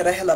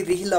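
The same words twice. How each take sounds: First: रहला with "a" after the r; mistaken vowel demo. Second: रिहला with a short "i" after the r; correct short i. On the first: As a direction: say रहला as "rah-la", not "rih-la". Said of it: "गलत है". (रहला, रा पर ज़बर की आवाज़) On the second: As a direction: say रिहला as "rih-la". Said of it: "इसलिए रिहला पढ़ना है". (रिहला, रा पर ज़ेर की आवाज़) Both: Shown as a demonstration.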